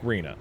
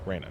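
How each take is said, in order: First: The first vowel sounds like 'ee'. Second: The first vowel sounds like 'ay'. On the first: The speaker calls it wrong. "I've been saying it wrong for decades" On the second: The speaker calls it right. "Reyna, not not Rena"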